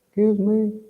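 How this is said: It is said in a small, squeaky voice.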